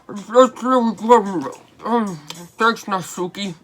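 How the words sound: It is read in a put-on David voice.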